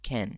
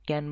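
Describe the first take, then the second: First: The k has a strong puff of breath. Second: The k has no puff of breath. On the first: The speaker calls it right. "এটা বলে ক্যান" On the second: The speaker calls it wrong. "ক্যান বলা যাবে না"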